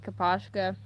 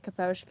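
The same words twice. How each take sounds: First: "Kaposhka" with an open "ah" in the middle; kuh-POSH-kuh. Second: "Kaposhka" with a long "oh" in the middle; kuh-POHSH-kuh. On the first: Shown as a demonstration. Fan showing how they first read it, "Kaposhka" as kuh-PAHSH-kuh. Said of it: "I started saying it". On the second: Retold or imitated. Fan copying how the creator said it, "Kaposhka" as kuh-POHSH-kuh. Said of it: "And then he said it".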